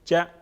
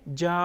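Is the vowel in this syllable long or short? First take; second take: short; long. First: The vowel is short and quick. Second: The vowel is drawn out long. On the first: The speaker calls it right. "Half अलिफ के बराबर इसको पढ़ेंगे" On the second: The speaker calls it wrong. "इस तरह हमने नहीं पढ़ा"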